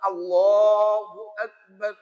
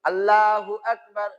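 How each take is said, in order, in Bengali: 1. L-এর পরের অক্ষরটি একটি গোলাকার 'lo'। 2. L-এর পরের অক্ষরটি একটি খোলা 'la'। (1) "উনি বলছেন ল" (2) "আর আমরা বলছি লা।"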